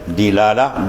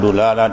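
First: The first consonant is followed by an i vowel. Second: The first consonant is followed by a u vowel. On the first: "Dalu dibaca tiga wajah" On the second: "Dalu dibaca tiga wajah"

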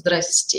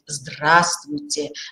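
First: Middle sounds are dropped, giving a shortened form. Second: Every syllable of the greeting is said clearly. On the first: It is a careless, perfunctory greeting. The speaker calls it wrong. "Не просто" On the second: It sincerely wishes the listener good health. The speaker calls it right. "фонетически, орфоэпически мы должны четко говорить"

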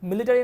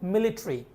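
First: The ending is a full 'ary' syllable. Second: The ending is reduced to a short 'ree'. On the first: The speaker calls it wrong. "মিলিটারি না হয়ে" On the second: The speaker calls it right. "হবে মিলিটারি"

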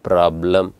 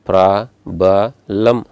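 First: No extra vowel, so the word is two syllables. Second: An extra vowel makes the word three syllables. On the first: The speaker calls it right. "You pronounce it ಪ್ರಾಬ್ಲಮ್" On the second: The speaker calls it wrong. "ಈ ಥರ pronounce ಮಾಡ್ತೀರೇನು? This is wrong"

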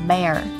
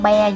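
First: The final r is clear, tongue curled up. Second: The final r is left out, tongue not curled. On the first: The speaker calls it right. "Nhớ đánh lưỡi lên bear" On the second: The speaker calls it wrong. "Không phải con bear nha mọi người"

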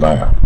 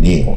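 First: The vowel sounds like 'eye', as in 'nine'. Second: The vowel sounds like 'ee', as in 'kneel'. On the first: The speaker calls it right. "它念奈尔" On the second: The speaker calls it wrong. "它不念尼尔"

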